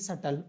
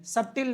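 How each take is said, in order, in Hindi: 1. अंतिम अक्षर में शिथिल 'tul' स्वर है। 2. अंतिम अक्षर में स्पष्ट 'til' स्वर है। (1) "इसका उच्चारण हम लोग शटल करते हैं" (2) "सटिल नहीं पढ़ते जी"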